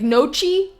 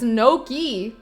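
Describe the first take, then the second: First: The middle consonant is a 'ch' sound. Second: The middle consonant is a 'k' sound. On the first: It follows the spelling. "I'd be pronouncing it like nochi because it's got a ch" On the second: It is the accepted pronunciation. "If you want people to pronounce it Noki, take out the fucking H"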